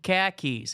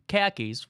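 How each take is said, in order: First: It is said in a Boston accent. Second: It is said in a general American accent. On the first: It names car keys. "Hand me the khakis" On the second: It names trousers. "which people wear to golf"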